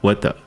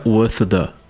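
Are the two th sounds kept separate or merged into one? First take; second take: merged; separate. First: The two th sounds merge into one. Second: Both th sounds are pronounced separately. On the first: The speaker calls it right. "vai ficar with the" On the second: The speaker calls it wrong. "não fica with the"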